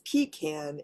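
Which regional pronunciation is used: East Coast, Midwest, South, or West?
East Coast. It uses the East Coast regional pronunciation. "East Coast is pecan"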